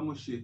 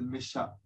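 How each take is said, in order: First: The name is said with a standard pronunciation. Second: The name is said with a Yemenite pronunciation. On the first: This is the usual way of saying it. "C'est pas Moshe" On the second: "ils disent Mesha"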